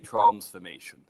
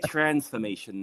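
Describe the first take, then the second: First: It is said with a British accent. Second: It is said with an American accent. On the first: This is how the speaker used to say it. "I don't say transformation" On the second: This is how the speaker says it now. "I say transformation now"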